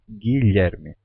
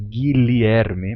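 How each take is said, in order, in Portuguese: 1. O meio é pronunciado como um som palatal 'lhe'. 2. O meio é pronunciado como sons 'li-e' separados. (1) "se tornando um Lhe" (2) "Não mais, não mais Guilherme"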